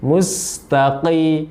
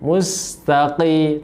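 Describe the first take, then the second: The two takes are said the same way.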